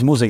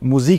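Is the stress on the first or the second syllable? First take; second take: first; second. First: The stress is on the first syllable. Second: The stress is on the second syllable. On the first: The speaker calls it right. "nee, das heißt Musik" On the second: The speaker calls it wrong. "Ich habe das am Anfang falsch betont"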